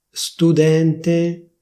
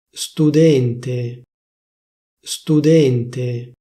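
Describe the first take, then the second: First: "Studente" with an open E, studènte, a bit higher; "Studente" standard open E; official open e. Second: "Studente" with a closed E, studénte; "Studente" the Milan way, closed E; Milanese closed e. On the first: Showing viewers standard "Studente", open E. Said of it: "prima ti dico la pronuncia ufficiale". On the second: Showing viewers Milanese "Studente", closed E. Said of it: "come viene pronunciata a Milano". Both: Shown as a demonstration.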